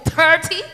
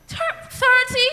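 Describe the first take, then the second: First: Said in the usual way. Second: High, slow disbelieving repeat of thirty; shocked parent. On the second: Retold or imitated. Parent seeing the grade thirty, high shocked disbelief. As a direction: say thirty as if you can't believe it. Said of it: "now she come home with thirty".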